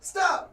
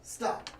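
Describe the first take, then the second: First: It is said loudly. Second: It is said quietly.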